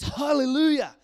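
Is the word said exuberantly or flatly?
exuberantly. The word is said with exuberant enthusiasm. The speaker calls it right. "It's exuberant praise and boasting and raving"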